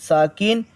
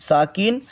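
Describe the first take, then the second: The two takes are said the same way.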